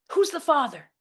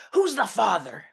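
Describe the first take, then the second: First: High, loud shriek; mom's shriek. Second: Dad's bellow. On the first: Mother shrieking at her daughter over the phone. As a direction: shriek it as an accusation. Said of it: "my mom shrieks". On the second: Father bellowing at his pregnant daughter over the phone. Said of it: "my dad bellows". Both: Retold or imitated.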